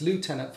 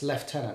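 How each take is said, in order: First: It is said with an American pronunciation. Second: It is said with a British pronunciation. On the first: "in America, it's lieutenant" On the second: "in the U K, it's lieutenant"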